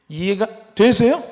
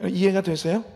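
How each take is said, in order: First: "되세요" stretched slow with a loud rising push; louder, slow challenge. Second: Said in the usual way. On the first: Shown as a demonstration. Preacher pressing the congregation, louder and slower. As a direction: repeat the question louder and slower.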